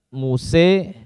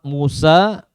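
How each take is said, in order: First: The final vowel is a close e, near i. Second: The final vowel is a fully open a. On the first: "Muse dengan imalah" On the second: "Musa dengan al-fath"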